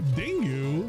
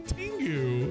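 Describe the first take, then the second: First: The word begins with a D sound. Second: The word begins with a T sound. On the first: The speaker calls it wrong. "He said it with a D too" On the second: The speaker calls it right. "It's a Tengu"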